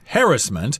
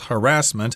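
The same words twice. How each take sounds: First: The word is said the British way. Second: The word is said the American way. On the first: "Sometimes it's pronounced harassment. I've heard that from English people mostly" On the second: "Americans pronounce this as harassment"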